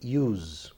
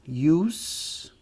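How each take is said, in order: First: The word ends with a buzzing Z sound. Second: The word ends with a hissing S sound. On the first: It is used as a verb. "o S se transforma em Z" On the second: It is used as a noun. "esse é som de S"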